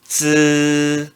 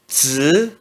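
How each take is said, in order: First: The pitch stays high and level. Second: The pitch rises from mid to high. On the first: "I no primeiro tom se pronuncia z" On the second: "No segundo tom se pronuncia z"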